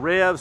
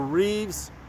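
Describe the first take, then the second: First: The vowel is a short 'e' sound. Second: The vowel is a long 'ee' sound. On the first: "I think it's Revs" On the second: "whichever way you want to say it"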